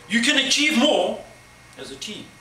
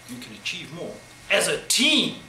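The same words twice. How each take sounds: First: It starts loud and then tapers off. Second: It starts slow and soft, then builds.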